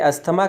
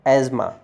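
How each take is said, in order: First: The middle has an s and th sound. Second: The middle has a single z sound. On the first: The speaker calls it wrong. "इसे अस्थमा कहा जाता है" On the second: The speaker calls it right. "सही उच्चारण एज़्मा होता है"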